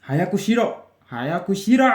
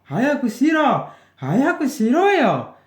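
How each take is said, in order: First: Louder, higher hurry order; insistent command; urging order. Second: Very high, loud hurry order; loud impatient command; impatient shout. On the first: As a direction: push someone to hurry. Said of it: "Itu perintah ya". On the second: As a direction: lose patience and yell at them. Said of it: "Harus semangat kalau perintah itu". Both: Shown as a demonstration.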